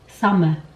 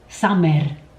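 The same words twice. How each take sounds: First: The consonants are pronounced softly. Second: The consonants are heavily overpronounced. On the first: The speaker calls it right. "the correct pronunciation is" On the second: The speaker calls it wrong. "a Cypriot would probably say"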